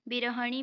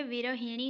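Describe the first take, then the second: First: विरहणी with a short "ha" before "ni"; विरहणी, no i-sound after the h; wrong form विरहणी. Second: विरहिणी with "hi" before "ni"; विरहिणी, i-sound after the h; correct form विरहिणी. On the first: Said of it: "भी नहीं होता है". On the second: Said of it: "होता है". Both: Shown as a demonstration.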